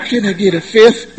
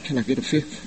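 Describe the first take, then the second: First: Laughing "Can I get a fifth?" in a light imitation. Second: Breathy hushed request, much softer; hushed, meek "Can I get a fifth?". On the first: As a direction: repeat the request, amused. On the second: Retold or imitated. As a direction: whisper it meekly like a timid pop star. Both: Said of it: "Sounded like [name] on a bad day".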